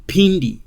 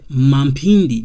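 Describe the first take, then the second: First: Pindi with an aspirated P and no M; correct Pindi. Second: Mampindi with a full "ma" syllable in front; wrong Mampindi. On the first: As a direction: say Pindi crisply. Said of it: "My name is Pindi". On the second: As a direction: sound out the M as "ma" in Mampindi. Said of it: "not Mampindi". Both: Shown as a demonstration.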